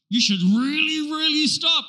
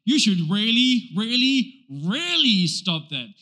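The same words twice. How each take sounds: First: "really, really" said twice, higher and pressing; English double emphasis. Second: "really, really, really" slowly, each "really" stressed; triple emphasis. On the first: Preacher showing the English way of emphasis, stressing "really" twice. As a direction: lean on the doubled "really" like a mock scolding. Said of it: "we just do it in the double". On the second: Preacher showing Hebrew-style triple emphasis, slow stressed "really". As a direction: drag out the tripled "really" as a warning. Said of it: "In the Hebrew language... triplicate". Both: Shown as a demonstration.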